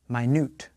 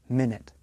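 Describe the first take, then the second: First: The stress falls on the second syllable. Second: The stress falls on the first syllable. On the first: It is an adjective: very small. "has stress in the middle of the word and a different vowel sound" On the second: It is a noun: a unit of time. "Minute is a noun. It is a unit of time. The stress is on the first part of the word"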